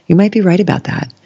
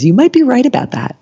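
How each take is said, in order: First: Said in the usual way. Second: Lightly voiced teacher. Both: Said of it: "she always says".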